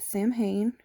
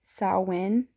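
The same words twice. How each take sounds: First: Samhain said as sam-HAYN; common mispronunciation. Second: Samhain said as SOW-in; correct pronunciation. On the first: Host showing how some people pronounce it, spelled-out pronunciation of Samhain. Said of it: "Some people pronounce it as Samhain". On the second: Host teaching viewers the festival's name, correct pronunciation of Samhain. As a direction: say Samhain with a silent mh, "sow-win". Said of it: "the way to actually pronounce it is". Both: Shown as a demonstration.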